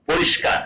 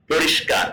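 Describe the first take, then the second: First: পরিষ্কার whispered with no voice; whispered word. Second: Said in the usual way. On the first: Shown as a demonstration. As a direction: say পরিষ্কার under your breath. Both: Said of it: "মানে কি".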